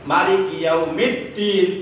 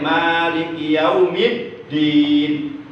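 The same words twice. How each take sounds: First: The first vowel of Maliki is kept short. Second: The first vowel of Maliki is held long. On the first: It means the king of the Day of Judgement. "boleh dipendekkan" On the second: It means the one who rules the Day of Judgement. "boleh dipanjangkan"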